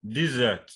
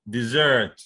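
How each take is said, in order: First: Desert as DEZ-ert, falling away; stress on first syllable. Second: Dessert with ZERT loud and falling; stress on second syllable. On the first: Teacher giving the noun, desert stressed on DEZ. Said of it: "So that's a noun". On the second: Teacher showing the verb, dessert stressed on ZERT. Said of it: "stress that you could have". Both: Shown as a demonstration.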